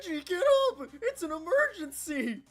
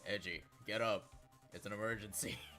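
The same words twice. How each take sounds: First: It is said in an urgent, excited way. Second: It is said flatly, with a straight face.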